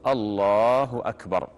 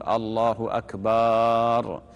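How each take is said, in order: First: "الله أكبر" said slowly and clearly, no stretched ba; a clean, measured "الله أكبر"; correct takbir. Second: "الله أكبر" with the ba of "أكبر" drawn out long and slow; stretched ba in akbar. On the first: Imam demonstrating the correct takbir slowly. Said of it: "هذا هو التكبير". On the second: Imam showing the wrong takbir with the ba drawn out. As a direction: drag out the ba in "أكبر". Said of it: "يمد باء أكبر". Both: Shown as a demonstration.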